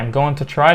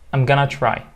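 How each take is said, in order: First: "Going to" is said fully as separate words. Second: "Going to" is reduced to one word, "gonna". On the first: The speaker calls it wrong. "لا منقولهاش بقى" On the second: The speaker calls it right.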